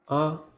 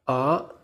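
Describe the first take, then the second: First: The syllable is short, light and unstressed. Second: The pitch rises from low to high. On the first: "It is pronounced softly" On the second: "Your voice should rise just like the car"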